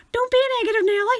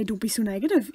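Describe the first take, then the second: First: High, loud singsong scolding; exaggerated telling-off, pitched way up; loud overdone nagging; mock chiding. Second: Said in the usual way. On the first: Shown as a demonstration. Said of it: "You don't have to say". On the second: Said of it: "you just have to say".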